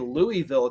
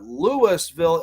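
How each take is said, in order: First: The name is said the Kentucky way. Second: The name is said the Illinois way. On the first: It names the city in Kentucky. The speaker calls it wrong. "You can say it wrong and say Louisville, Kentucky" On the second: It names the town in Illinois. The speaker calls it right. "Louisville, Illinois is how you say that town's name"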